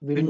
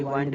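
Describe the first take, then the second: First: विंड with a short ih; short I sound. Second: वाइंड with an eye vowel; long I sound. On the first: Teacher giving the reading, विंड with short i. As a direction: say विंड as in windy. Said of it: "विंड होता है". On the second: Teacher rejecting a misreading, वाइंड with long i. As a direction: open वाइंड out to "wined". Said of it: "वाइंड नहीं बोलेंगे". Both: Shown as a demonstration.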